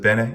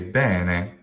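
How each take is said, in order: First: Both syllables are short. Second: The first syllable is stretched long. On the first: The speaker calls it right. "instead of bene" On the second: The speaker calls it wrong. "you might hear someone say bene"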